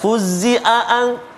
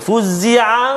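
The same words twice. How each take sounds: First: Both ain sounds become plain glottal stops. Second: The two ain sounds merge into one. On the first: "hamzah, fuzzi'an, dua-dua hamzah" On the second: "dia mungkin boleh jadi macam satu ain je"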